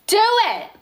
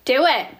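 First: Emphatic urging. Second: Said in the usual way. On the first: Real, not acted. Host urging viewers toward dream job, emphatic. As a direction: DO IT pitched high and insistent. Repeats the urging with more force.

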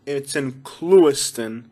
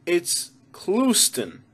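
First: Slow, proper Clewiston in three syllables, CLOO-is-tun; careful Clewiston, every syllable sounded; job-interview pronunciation. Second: Slow Clewiston squashed to CLOOS-tun; casual two-syllable Clewiston; homie pronunciation. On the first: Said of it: "if you're applying for a job". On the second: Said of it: "hanging out with all the homies". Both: Shown as a demonstration.

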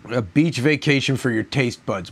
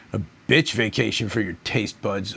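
First: Said in the usual way. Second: "bitch" stretched out in place of beach, a bit lower and softer; mocking slogan twist. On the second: Shown as a demonstration. Reviewer mocking the beer's slogan, leaning on "bitch". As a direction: sneer the word "bitch" into the slogan. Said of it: "My ass".

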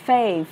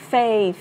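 No difference in how they are said.

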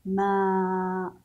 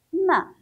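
First: Long "ما" held on a level note; long vowel. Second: Short, high, loud "ما"; short vowel. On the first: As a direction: stretch out the vowel of "ما" steadily. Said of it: "وصوت طويل". ("ما" بصوت طويل ممدود) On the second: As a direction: say "ما" with a quick clipped-off vowel, pitched up. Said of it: "صوت قصير". ("ما" بصوت قصير مرتفع) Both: Shown as a demonstration.

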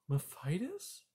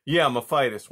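First: Soft, high, rising question; taken aback. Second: Loud, falling, matter-of-fact confirmation; defiant son. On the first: A narrator's reading. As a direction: query it in hushed surprise. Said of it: "cried Poppy, taken aback". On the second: Acted. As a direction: push back loudly at your mother. Son insists against startled mother.

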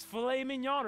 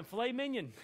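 First: Said in the usual way. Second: Mignon said like "minion"; wife's mispronunciation. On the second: Retold or imitated. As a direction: say mignon as "MIN-yun", with a plain English ending. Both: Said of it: "as my wife said one time".

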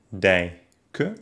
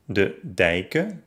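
First: Dij-ken with a clear gap; dijken by syllables. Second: Said in the usual way. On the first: Shown as a demonstration. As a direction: pause after ij in dijken. (dijken in Silben gesprochen) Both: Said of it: "Die Trennung folgt erst".

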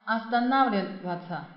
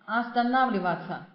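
First: Останавливаться with the stressed а clear. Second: Останавливаться repeated, stressed а clear. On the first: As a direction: lean on the а in останавливаться. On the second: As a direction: hit the а in останавливаться again. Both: Shown as a demonstration. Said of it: "重音在这个啊上面".

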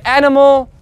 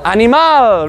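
First: Animal as "AN-uh-mul"; English animal with stress first and weak ending. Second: Animal as "ah-nee-MAL"; Spanish animal with a full, stressed final "al". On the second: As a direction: lean on the end of animal, Spanish style. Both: Shown as a demonstration. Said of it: "end with al".

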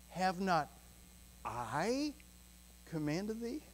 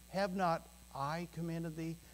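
First: "I" set apart by pauses on both sides, then "commanded thee?" rising; stress on I. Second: Said in the usual way. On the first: Shown as a demonstration. Preacher showing the congregation where the emphasis falls on "I". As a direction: pause before and after "I", lean on it. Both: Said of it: "You know where I put the emphasis?".

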